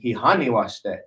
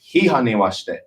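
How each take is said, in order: First: The stress in hihani is off the first syllable. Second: The stress in hihani is on the first syllable. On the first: The speaker calls it wrong. "but that was wrong" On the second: The speaker calls it right. "And it's"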